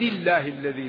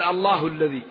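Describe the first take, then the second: First: Allah ends in an i vowel, joined to before. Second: Allah ends in an u vowel after a pause. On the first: The reading runs on from the previous phrase. "وإذا وصل قال العزيز الحميد الله الذي له" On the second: The reading stops before it and starts fresh. "إذا قال صراط العزيز الحميد رفع"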